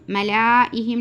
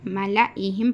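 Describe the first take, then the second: First: मलाइहिम with a long ला; मलाइहिम with the silent alif wrongly sounded long; wrongly lengthened. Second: मलाइहिम with a short ला; मलाइहिम with the alif left silent; correct short reading. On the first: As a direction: drag the ला in मलाइहिम, the mistake to avoid. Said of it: "नहीं पढ़ना". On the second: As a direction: keep the ला in मलाइहिम brief, no stretch. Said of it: "पढ़ना". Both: Shown as a demonstration.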